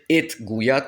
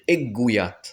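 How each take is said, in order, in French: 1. La dernière sonorité de l'article est prononcée séparément. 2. L'article se fond dans un son g doublé. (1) "On va pas dire et Gouillat" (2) "on va dire Eggouillat"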